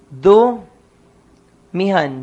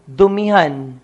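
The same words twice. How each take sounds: First: Dumihan stretched out syllable by syllable, very slow; teacher stretching out Dumihan very slowly; slowly drawn out. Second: Said in the usual way. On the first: Shown as a demonstration. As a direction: spell out Dumihan slowly for the class. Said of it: "Naging dumhan". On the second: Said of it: "For example".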